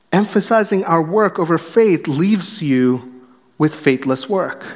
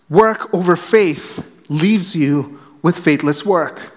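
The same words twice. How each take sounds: First: Said in the usual way. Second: Slow, each word weighted, "work" leaned on at the end; slow emphatic restatement. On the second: Shown as a demonstration. Preacher repeating his point to the congregation, slow and emphatic. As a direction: hammer home the key line slowly.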